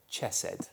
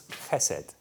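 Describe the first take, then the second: First: Chesed with an English ch, like church; chesed read the English way, hard ch; chesed said as spelt. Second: Chesed with a throaty ch, as in Scottish loch, said slowly; chesed the Hebrew way, guttural ch, unhurried. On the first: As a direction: say chesed starting with a plain ch as in chair. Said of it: "'cause it's a ch sound". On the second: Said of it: "it's a little bit awkward for us to say". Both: Shown as a demonstration.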